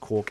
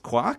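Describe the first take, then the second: First: The vowel does not rhyme with mark. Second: The vowel rhymes with the word mark. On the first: This is the namer's own justified pronunciation. "why it could still be pronounced quark, even though it looks like it's meant to rhyme with the word mark" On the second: This is how the source line suggests saying it. "which makes you think it should be pronounced quark"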